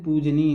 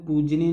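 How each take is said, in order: First: पूजनीय ending in "nee-ya"; correct pronunciation. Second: पूजनीय said with a final n, pooj-neen; wrong form pronounced. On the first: Teacher giving the right spelling, correct form sounded out. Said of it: "पूजनीय होता है". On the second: Teacher rejecting a misspelling, wrong form sounded out. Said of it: "पूजनीय नहीं". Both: Shown as a demonstration.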